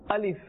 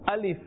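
No difference in how they are said.

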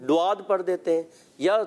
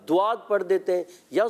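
Both takes have the same delivery.

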